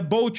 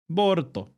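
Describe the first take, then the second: First: It is one syllable ending in lt. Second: It has extra vowels: Bo-ru-to. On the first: "Mas é Bolt o nome dele" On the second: "eles falam Boruto"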